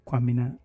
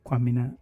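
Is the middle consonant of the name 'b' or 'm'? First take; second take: m; m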